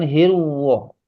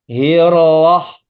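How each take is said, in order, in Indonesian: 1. Vokal itu diucapkan dengan bibir membulat. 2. Vokal itu diucapkan tanpa membulatkan bibir. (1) "Bibirnya, Pak, jangan hirwoh" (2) "Bibir saya tetap bunyinya sama... nggak pakai bibir"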